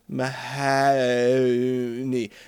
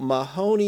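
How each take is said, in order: First: The name is said in a rural Nova Scotian accent. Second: The name is said in a plain, standard accent. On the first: "But in a rural Nova Scotian accent, it comes out as Mahoney" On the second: "So Mahoney is there"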